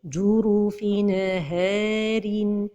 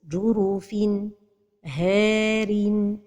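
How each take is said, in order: First: The N is released with a small bounce. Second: There is a break between N and H. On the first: "La première erreur, c'est al-qalqalah de an-noun de at-tanwin" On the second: "c'est la pause"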